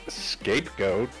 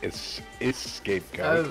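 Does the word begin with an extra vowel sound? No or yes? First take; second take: no; yes. First: The word starts directly with the 'sk' sound. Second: The word starts with an extra 'e' vowel. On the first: The speaker calls it right. "It's just scapegoat" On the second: The speaker calls it wrong. "Like with an E"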